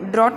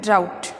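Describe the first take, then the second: First: The vowel sounds like 'aw' as in 'caught'. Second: The vowel sounds like 'ow' as in 'out'. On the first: The speaker calls it wrong. "इसे हम ड्रॉट नहीं बोलेंगे" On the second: The speaker calls it right. "हम इसे बोलेंगे ड्राउट"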